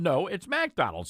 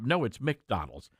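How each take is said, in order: First: McDonald's is said in a Southern accent. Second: McDonald's is said the New York way.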